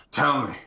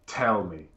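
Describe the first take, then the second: First: Louder, forceful interrogator's command; insistent demand. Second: Interrogator's demand. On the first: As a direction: press hard for the answer, voice raised. Interrogator presses harder for the answer. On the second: Interrogator demands an answer from psyker. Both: Acted.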